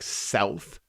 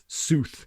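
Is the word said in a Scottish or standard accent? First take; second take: standard; Scottish. First: It has a standard 'ow' vowel. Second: It has a Scottish 'oo' vowel.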